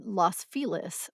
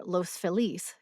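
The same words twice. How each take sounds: First: Los Feliz as loss FEE-liss, short O; anglicized local pronunciation. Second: Los Feliz as lohss feh-LEESE, long O; Spanish-style pronunciation. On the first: Narrator shows how LA locals say it, Los Feliz as loss FEE-liss. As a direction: stress the first syllable of Feliz, Los rhyming with boss. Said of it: "Los with a short O". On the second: Narrator gives the settlers' Spanish version, Los Feliz as lohss feh-LEESE. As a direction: stress the last syllable of Feliz, Los with a long O. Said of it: "early settlers to the neighborhood spoke Spanish".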